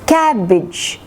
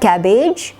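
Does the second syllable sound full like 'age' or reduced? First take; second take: reduced; full. First: The second syllable has a short reduced vowel. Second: The second syllable has a full 'age' sound. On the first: The speaker calls it right. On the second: The speaker calls it wrong.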